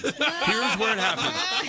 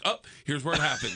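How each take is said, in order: First: Slow, higher, louder, laughing through it; slow laughing mock dread. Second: Said in the usual way. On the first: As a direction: stretch it out, laughing at your doom.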